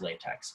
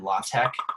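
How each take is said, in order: First: It sounds like the word 'latex'. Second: It sounds like 'law tech'. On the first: Some people argue for this form. "tell you that it's pronounced latex" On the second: This is the form the group prefers. "we here at I G Projects are firm believers uh, in law tech"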